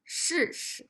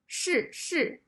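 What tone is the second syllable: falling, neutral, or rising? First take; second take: neutral; falling. First: The second syllable is short, weak and toneless. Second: The second syllable carries a falling tone. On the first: "The second character is not one of the four tones... neutral tone... It's short and weak" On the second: "the second character is also the fourth tone"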